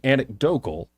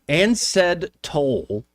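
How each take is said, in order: First: The word is said as standard 'anecdotal'. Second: The word is garbled into 'ansed toll'. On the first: The speaker calls it right. "instead of saying anecdotal" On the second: The speaker calls it wrong. "Ansed Toll is trending because instead of saying anecdotal"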